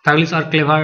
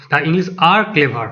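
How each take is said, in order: First: Said in the usual way. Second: Slow, word by word answer; slow model reading. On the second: Shown as a demonstration. Teacher reads the correct answer to students, slowly. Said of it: "তাহলে option B উত্তর".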